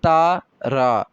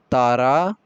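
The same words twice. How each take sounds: First: ता and रा said as two separate slow syllables; sounding out syllables. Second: Said in the usual way. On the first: Shown as a demonstration. Teacher to class, split ता रा into two clear syllables. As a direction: spell out ता then रा apart for the class. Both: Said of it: "इसके अंदर रे की भी आवाज़ है".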